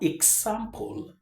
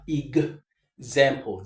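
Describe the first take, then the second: First: The x is pronounced as a ks sound. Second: The x is pronounced as a gz sound. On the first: The speaker calls it wrong. "not as x, x. It's not example" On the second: The speaker calls it right. "we pronounce this X as giz"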